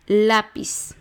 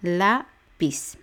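First: Lápiz as one word with a strong, long LÁ; Lápiz unbroken, weight on LÁ; stress on A. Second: Lápiz split as LÁ, PIZ with a pause; lápiz broken into its two syllables. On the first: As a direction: punch the first syllable of Lápiz. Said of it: "Va el acento en la A". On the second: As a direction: count out lápiz in two separate beats. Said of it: "son dos sílabas". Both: Shown as a demonstration.

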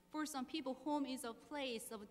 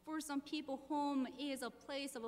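The two takes are said the same way.

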